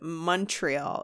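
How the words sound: It is said with an English Canadian pronunciation. "they pronounce it Montreal if they're not like a French Canadian"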